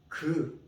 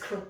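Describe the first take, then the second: First: The consonant is a soft, plain G. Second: The consonant is a strong, aspirated K. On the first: The speaker calls it right. "This consonant pronounced as 그" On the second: The speaker calls it wrong. "some people say, oh, it's 크"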